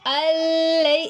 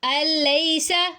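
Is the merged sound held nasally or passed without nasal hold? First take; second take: held nasally; without nasal. First: The merged sound is held through the nose. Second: The merged sound passes without any nasal hold. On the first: The speaker calls it wrong. "अल्लै ऐसे नहीं पढ़ेंगे" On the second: The speaker calls it right. "बगैर गुन्ने के इदगाम करते हैं"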